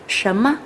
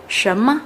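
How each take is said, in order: No difference in how they are said.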